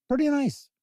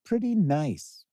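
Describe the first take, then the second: First: Pretty nice jumps way up high; a playful high-pitched take; squeaky pretty nice. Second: Pretty nice said slow in a put-on voice, back at normal pitch; a lazy, drawn-out echo. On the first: Pretend. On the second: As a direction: drag it out slowly in a different voice. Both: Playful repeat of own remark.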